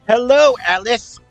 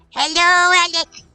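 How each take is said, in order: First: It is said in the speaker's normal voice. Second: It is said in a special put-on voice.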